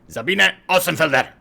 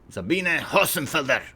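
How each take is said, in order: First: The name is yelled out loudly. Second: The name is said at normal volume.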